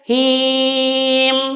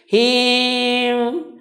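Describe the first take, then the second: First: The final m is clear and distinct. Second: The final m is faint and blurred. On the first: The speaker calls it right. "tapi tetap dibaca him" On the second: The speaker calls it wrong. "bukan bacanya seperti ini"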